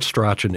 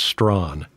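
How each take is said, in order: First: The name is said with two syllables. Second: The name is said as one syllable. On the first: The speaker calls it wrong. "it's not Strachan" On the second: The speaker calls it right. "it's Strawn"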